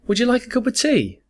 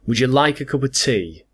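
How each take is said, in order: First: It is said in a polite, friendly tone. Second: It is said in an annoyed, irritated tone. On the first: A kind, sincere offer. "Let's go back to the polite one" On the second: The speaker is irritated. "Now let's try it with annoyance"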